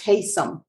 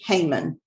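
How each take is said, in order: First: The name sounds like Haysom, with an s. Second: The name sounds like Heyman, with an m. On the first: The speaker calls it right. "It's Haysom" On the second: The speaker calls it wrong. "it's not how you say their name"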